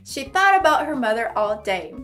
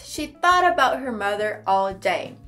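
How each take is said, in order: No difference in how they are said.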